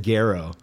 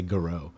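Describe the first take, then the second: First: Garreau as GAIR-oh; Garreau with a full "gair" first; usual pronunciation shown. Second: Garreau as guh-ROH; Garreau with a reduced first vowel; others' pronunciation shown. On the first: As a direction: stress the start of Garreau, GAIR-oh. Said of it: "I've always said Garreau". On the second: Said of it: "people say Garreau". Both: Shown as a demonstration.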